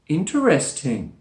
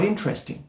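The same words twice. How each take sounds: First: It is said with four syllables. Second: It is said with three syllables. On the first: There is more feeling or surprise. "we can enunciate the word very clearly with all four syllables" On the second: It is an ordinary, neutral remark. "with three syllables, and we drop a schwa sound"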